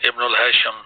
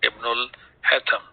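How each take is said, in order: First: The name is said with an 'sh' sound. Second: The name is said without an 'sh' sound. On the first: This is how local speakers say the name. "that we pronounce as Ibnul Hasham" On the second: This is the Arabic way of saying the name. "Sheen is not there in the Arabic language, so we will call it as"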